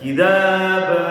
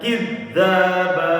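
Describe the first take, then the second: First: The middle consonant is short and single. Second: The middle consonant is held long and doubled. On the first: It means a lie. "boleh bacanya dengan takhfif, nggak pakai syiddah" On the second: It means accusing one another of lying. "Bitasydid boleh juga"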